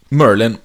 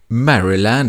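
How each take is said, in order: First: The name is squeezed into two short syllables. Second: The name is said with full, separate syllables. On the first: This is how people who live there say it. The speaker calls it right. "Det är som Merlin, säger man" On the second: This is how outsiders would say it. The speaker calls it wrong. "Maryland skulle du och jag ha sagt"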